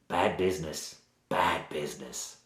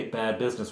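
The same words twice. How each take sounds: First: Low, soft Cockney warning; bad Cockney accent. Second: Said in the usual way. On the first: Village woman warning strangers off that end of the village, in bad Cockney. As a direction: drop low and ominous in mock Cockney. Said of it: "she has a sort of bad Cockney accent".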